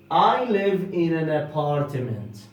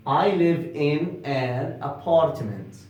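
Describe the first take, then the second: No difference in how they are said.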